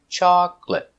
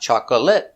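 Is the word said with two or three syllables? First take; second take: two; three. First: The word is said with two syllables. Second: The word is said with three syllables. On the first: The speaker calls it right. "two syllables" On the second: The speaker calls it wrong. "Not chocolate, not three"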